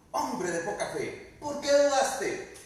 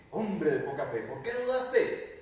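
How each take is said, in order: First: Slow, rising rebuke, louder at the end; scolding. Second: Slow rebuke rising on "dudaste"; mild scolding. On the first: Jesus scolding Pedro for doubting, firm rebuke. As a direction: scold him like a disappointed master. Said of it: "lo agarró y lo regañó". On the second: Jesus chiding Pedro as he lifts him, mild scolding. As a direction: chide gently but firmly. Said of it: "y le dice". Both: Acted.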